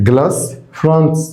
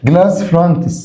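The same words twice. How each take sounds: First: Glass with a rising tune, a pause, then fronts; split into two words. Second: Said in the usual way. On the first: Shown as a demonstration. Teacher drilling the class, saying Glass then fronts separately. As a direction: break Glass and fronts apart for the learner to repeat. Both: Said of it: "Glass fronts معناها واجهات زجاجية".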